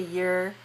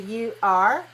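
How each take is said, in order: First: It is said as one syllable. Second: It is said as two syllables. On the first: "we have just one" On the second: "two syllables"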